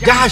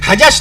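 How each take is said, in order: First: The name begins with a J sound. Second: The name begins with an H sound. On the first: The speaker calls it right. "जहश है, जीम है" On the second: The speaker calls it wrong. "हजश नहीं है"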